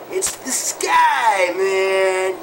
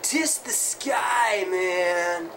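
First: Stoned revelation. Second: Slow, spaced-out stoner drawl; stoner guitarist voice. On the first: Acted. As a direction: proclaim it like a cosmic discovery. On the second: Shown as a demonstration. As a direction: drag it out like a dazed rocker dude. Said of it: "you gotta talk like this".

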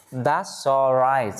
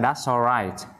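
First: Very slow "That's all right", each word drawn out. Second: "that's all right" run together, linking into "all"; linked sounds. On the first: Teacher modelling that's all right for learners, very slow. Slow take before linked reading. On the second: Teacher showing learners how to link that's all right, connected. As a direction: join "that's all right" into one smooth phrase. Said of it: "Đọc nối âm sang". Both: Shown as a demonstration.

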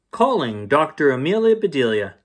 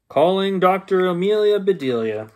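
First: Said in the usual way. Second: Title called out higher and louder like a show opener; announcing title. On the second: Shown as a demonstration. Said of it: "is Calling Doctor Amelia Bedelia".

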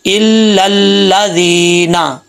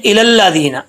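First: "इल लल्लादीना" slowly, doubling and holding the first l; correct recitation. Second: "इलल्लादीना" wrongly begun "i-lal", with a single first l; mistaken pronunciation. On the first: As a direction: recite "इल लल्लादीना" drawn out, "il-lal-laa-dhee-na". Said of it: "तो कैसे पढ़ेंगे". ("इल लल्लादीना" शद के साथ धीरे खींचकर पढ़ें) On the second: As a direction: run "इलल्लादीना" off with the first ल undoubled. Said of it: "ऐसे नहीं पढ़ना". ("इलल्लादीना" ग़लत, पहले लाम पर शद के बिना) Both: Shown as a demonstration.

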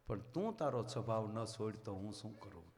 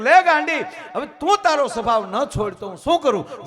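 First: Low, soft sorrowful question with stress on તું; a sad saint gently scolding, weight on તું; hushed, hurt reproach with a falling end; quiet sad reproach. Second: High, shouted reproach with stress on તું; the guru yelling in exasperation, hitting તું; laughing, shouted rebuke, much louder and higher; loud scolding. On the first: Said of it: "સંત રડતા રડતા કહે છે". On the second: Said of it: "સદગુરુએ કીધું કે". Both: Retold or imitated.

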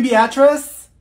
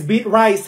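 First: "Beatrice" as BEE-uh-triss, loud and high; corrected name. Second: "beat rice" as two slow separate words; mispronounced name. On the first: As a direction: question it with "Beatrice" as one name. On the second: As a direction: read the name as BEET RICE. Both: Acted. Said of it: "You mean Beatrice?".

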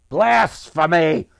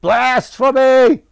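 First: Loud, drawn-out outraged cry; slow, loud and indignant, with room to build; angry grumble. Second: High, full-volume drawn-out shout; furious ranting. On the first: Merchant condemns Lucas for sorcery, loud angry outburst. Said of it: "The merchant grumbled". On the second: Merchant storms out of the square ranting, furious high shout. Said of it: "the merchant was ranting". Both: A narrator's reading.

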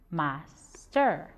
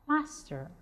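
First: "Master" split in two with a clear pause; syllable by syllable. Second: Said in the usual way. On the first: Shown as a demonstration. Teacher showing pupils two syllables in "Master", measured and separated. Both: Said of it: "We get two syllables".

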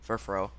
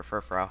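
First: Furfrou ending like "fro"; "fro" pronunciation. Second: Furfrou ending like "frow"; "frow" pronunciation. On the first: Player unsure of the name, Furfrou with an "oh" ending. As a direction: say Furfrou as fur-FROH. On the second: Player offering another reading, Furfrou with an "ow" ending. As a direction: say Furfrou as fur-FROW, rhyming with cow. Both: Shown as a demonstration. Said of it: "however you pronounce it".

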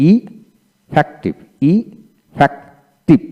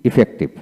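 First: Very slow effective with gaps between syllables; broken into syllables. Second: Said in the usual way. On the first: Shown as a demonstration. Teacher breaking effective down for learners, slow syllable by syllable. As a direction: pull effective apart piece by piece. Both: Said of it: "এইভাবে ভেঙে ভেঙে".

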